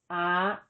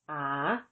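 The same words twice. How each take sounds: First: The syllable is said with a high tone. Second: The syllable is said with a rising tone. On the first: "With tone mark three, the tone is high" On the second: "With tone mark four, the tone is rising"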